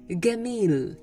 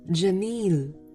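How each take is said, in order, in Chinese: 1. 第一个辅音是硬的g音。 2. 第一个辅音是软的j音。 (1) "到了埃及方言那里就变成了gamil" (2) "我们会说漂亮jamil"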